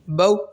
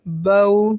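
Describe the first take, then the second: First: The syllable is cut off with a sharp jerk. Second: The syllable is said softly at normal length. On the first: The speaker calls it wrong. "ये मैंने आपको पढ़ के बताया कि झटका इस तरीके से दिया जाता है" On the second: The speaker calls it right. "Normal वे में पढ़ना है, आसान वे में पढ़ना है, नरमी के साथ"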